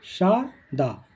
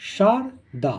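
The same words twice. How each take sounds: The two takes are said the same way.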